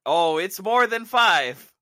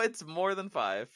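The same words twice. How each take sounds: First: Loud, slow groaning line. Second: Said in the usual way. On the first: Real, not acted. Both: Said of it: "Passing the groan test".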